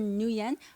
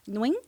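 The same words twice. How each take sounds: First: The name is said in another simplified English way. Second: The name is said in the native Vietnamese way. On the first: An easier approximation is fine. "or, or Nguyen" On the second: This is the proper pronunciation. "the way it's supposed to be pronounced is Nguyen"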